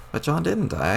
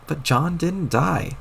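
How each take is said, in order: First: Said in the usual way. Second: "But John didn't die." said slowly, each word pressed out; slow insistent repeat; frustrated slow emphasis. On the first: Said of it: "I just told you". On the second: Acted. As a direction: spell it out in exasperation. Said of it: "this is so frustrating".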